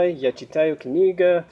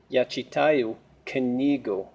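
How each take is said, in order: First: Книга ending in "ah" instead of "oo"; wrong case ending. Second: Книгу with a final "oo" sound, said slowly; correct accusative ending. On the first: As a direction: slip casually into книга with a final "ah". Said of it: "if I say it wrong". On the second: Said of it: "kniga changes to knigu". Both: Shown as a demonstration.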